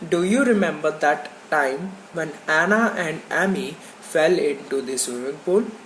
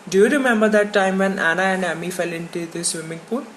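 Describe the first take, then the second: First: Each word is said separately with pauses between. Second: The words run together in one smooth flow. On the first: The speaker calls it wrong. "not like" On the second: The speaker calls it right. "they speak the sentence in a flow"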